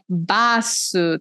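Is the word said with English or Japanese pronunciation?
Japanese. It is said Japanese-style, with two syllables. The speaker calls it right. "tem que falar em inglês é, ajaponesado"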